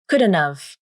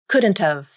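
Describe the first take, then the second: First: D is clear and T becomes a nasal flap. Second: D is clear and T is fully released. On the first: "Then you pronounce the D consonant. No nasal plosion occurs. But you omit the T consonant, which means you use a nasal flap" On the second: "Then you pronounce the D consonant. No nasal plosion in this pronunciation either. And you pronounce the T like the true T"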